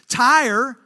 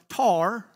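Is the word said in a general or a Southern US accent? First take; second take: general; Southern. First: It is said in a general accent, like 'tire'. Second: It is said in a Southern accent, like 'tar'.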